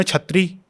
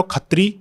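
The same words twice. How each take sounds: First: छत्री with "chh" in place of "ksh"; Western Indian pronunciation. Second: खत्री with "kh" in place of "ksh"; local pronunciation of kshatriya. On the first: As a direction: start छत्री on an aspirated ch, "chhatri". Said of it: "western India में". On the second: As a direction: start खत्री on an aspirated k, "khatri". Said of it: "क्ष जो होता है ना". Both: Shown as a demonstration.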